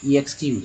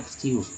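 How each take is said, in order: First: An extra 'ee' sound comes before 'ex'. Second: The word begins directly with 'ex'. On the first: The speaker calls it wrong. "ऐसे नहीं बोलेंगे ई एक्स" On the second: The speaker calls it right. "ई एक्स को एक्स ही उच्चारण करेंगे"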